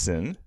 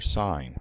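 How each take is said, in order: First: The vowel is short, like in pin. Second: The vowel is long, like in pine. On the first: The speaker calls it wrong. "it's not pronounced sin" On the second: The speaker calls it right. "This is actually an abbreviation for sine"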